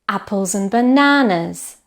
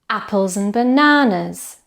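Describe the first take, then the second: The two takes are said the same way.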